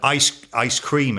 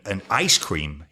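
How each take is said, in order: First: It has the British stress pattern. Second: It has the American stress pattern.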